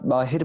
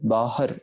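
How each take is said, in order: First: The second syllable has an 'i' vowel. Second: The second syllable has an 'a' vowel. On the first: The speaker calls it wrong. "बाहर को अक्सर औकात बाहिर पढ़ा जाता है ... वो गलत उच्चारण हो जाती है" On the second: The speaker calls it right. "हाय मुक्ता, हाय स्यारी नहीं"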